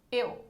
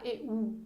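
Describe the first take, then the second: First: Said in the usual way. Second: "eu" broken into two syllables, e-u; split diphthong. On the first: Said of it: "Mesma coisa do eu". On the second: Shown as a demonstration. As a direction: give the u in "eu" its own full syllable. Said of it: "Ninguém fala eu". ("eu" separado em duas sílabas, e-u)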